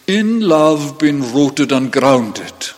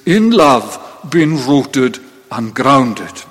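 First: "In love" weighted, whole line slow and deliberate; emphasis on in love. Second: Slow, deliberate, "In love" pressed first; stress on in love. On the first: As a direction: lean on "In love" and take it slowly. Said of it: "the Greek always puts the word on which emphasis is placed first". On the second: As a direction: land hard on "In love", then ease. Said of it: "the emphasis in the Greek is". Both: Shown as a demonstration.

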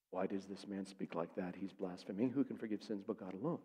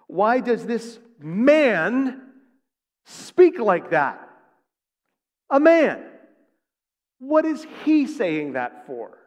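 First: Low, hushed inner thought; private questioning. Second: Loud, slow, drawn-out outrage; acted indignation. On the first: Acted. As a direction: murmur it as if thinking to yourself. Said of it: "questioning in their hearts". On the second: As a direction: stretch it out in high, scandalized disbelief. Scribes' outraged thoughts, acted out.

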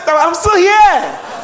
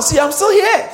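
First: Loud, high triumphant shout. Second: High, loud triumphant boast; excited declaration. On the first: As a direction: shout it out with joy. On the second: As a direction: proclaim it triumphantly. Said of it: "Tell someone". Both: Shown as a demonstration.

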